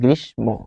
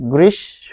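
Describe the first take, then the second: First: The m sound is pronounced after sh. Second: The m is silent and sh is doubled. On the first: The speaker calls it wrong. "কিন্তু আমরা বলি কি? ... এই জায়গাতেই শিক্ষার্থীরা ভুলটা করে" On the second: The speaker calls it right. "তাই এটি হচ্ছে গ্রীষ্ম"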